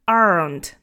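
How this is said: It is said with an audible R sound. The speaker calls it wrong. "that's going to be more American"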